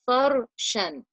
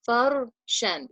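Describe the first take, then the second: First: The R is pronounced heavy and full-mouthed. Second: The R is pronounced heavy and full-mouthed.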